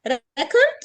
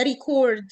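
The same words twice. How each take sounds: First: ريكورد as REC-ord; first-syllable stress. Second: ريكورد as ri-CORD; second-syllable stress. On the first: Teacher asking which one to say, REC-ord with front stress. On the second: Teacher asking which one to say, ri-CORD with end stress. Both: Shown as a demonstration. Teacher contrasts two pronunciations.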